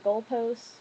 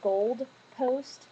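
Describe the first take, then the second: First: The first part has no d sound. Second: The first part ends with a d sound. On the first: The speaker calls it right. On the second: The speaker calls it wrong.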